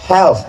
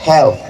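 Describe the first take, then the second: First: "health" ending in th; th pronunciation. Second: "health" clipped to hel; th pronunciation. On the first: Teacher showing how health ends. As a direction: finish "health" with the tongue on th. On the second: Teacher repeating health for students. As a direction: say "health" with th at the end. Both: Shown as a demonstration. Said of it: "Di ujungnya ada T H".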